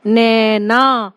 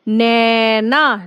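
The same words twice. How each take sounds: First: नैना very slow, the ऐ vowel held long; stretched ai. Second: नैना slowly, with the ऐ vowel drawn out; stretched ai. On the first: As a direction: draw out नैना's ऐ. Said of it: "वो हमारी बड़ी ए की आवाज होती है". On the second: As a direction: hold the ऐ in नैना long. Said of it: "ए की जो ध्वनि सुनाई पड़ रही है". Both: Shown as a demonstration.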